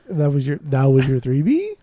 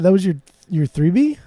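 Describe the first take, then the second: First: It ends with an exaggerated, higher questioning rise. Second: It ends with a mild questioning rise.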